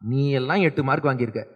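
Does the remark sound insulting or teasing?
insulting. It is said in a scornful, insulting tone. It belittles the listener. "அவன் எப்படி புரிஞ்சுட்டான்"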